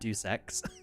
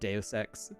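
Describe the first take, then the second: First: Deus is said like the word deuce. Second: Deus is said as day-us. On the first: The speaker calls it wrong. "I said it that way at first too" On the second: The speaker calls it right. "I'm pretty sure it's Deus"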